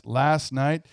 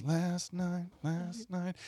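First: Said in the usual way. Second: Soft, fading echo effect; imitated echo, dropping away; delay echo. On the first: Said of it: "every time he says". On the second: Shown as a demonstration. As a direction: repeat it quietly like a delay pedal. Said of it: "there's a delay where it goes".

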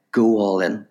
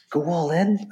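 First: Said in the usual way. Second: High, rising echo of disbelief; incredulous question. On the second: Retold or imitated. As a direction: throw the order back as a question. Character questions the command back.

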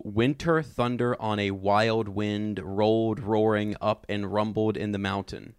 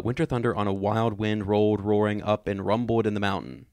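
First: Slow, measured dramatic reading; savoured alliteration. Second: Quick tongue-twister reading; faster. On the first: Host rereads a favorite line for its alliteration, slow and savoured. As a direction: read it slowly, relishing each alliterated word. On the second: Host retries the line after a challenge to say it fast, quicker. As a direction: rattle the alliterative line off faster. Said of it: "Let me try to do it faster". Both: Shown as a demonstration.

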